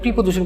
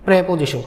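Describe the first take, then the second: First: The first vowel sounds like 'i'. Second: The first vowel sounds like 'e'. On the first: The speaker calls it wrong. "প্রিপোজিশন কোনো শব্দ নেই" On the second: The speaker calls it right. "এটা কি উচ্চারণ করতে হবে?"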